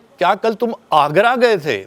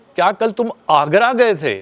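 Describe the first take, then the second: First: The stress is on Agra. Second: The stress is on Agra.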